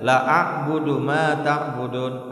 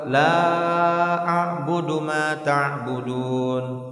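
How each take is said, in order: First: The first vowel is held short. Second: The first vowel is held long. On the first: Surely I will worship what you worship. The speaker calls it wrong. "Jangan kita baca" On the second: I do not worship what you worship. The speaker calls it right. "tapi katakan apa?"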